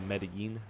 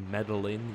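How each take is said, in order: First: The double L is said as a Y sound. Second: The double L is said as an English L. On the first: The speaker calls it right. "you say Medellin" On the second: The speaker calls it wrong. "You don't say Medellin"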